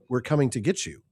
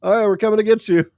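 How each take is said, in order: First: It sounds ominous and threatening. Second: It sounds cheerful and casual.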